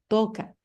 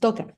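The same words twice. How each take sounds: First: The first vowel is long. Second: The first vowel is short. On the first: The speaker calls it right. "al pronunciarlo sí alargamos esa vocal" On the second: The speaker calls it wrong. "no es toca"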